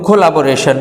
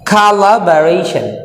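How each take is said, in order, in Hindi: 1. स्वर 'o' जैसे लगते हैं। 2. स्वर 'a' जैसे लगते हैं। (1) "এটা কিন্তু কোলাবোরেশন না" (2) "তাইলে খালা ব্যারেশন"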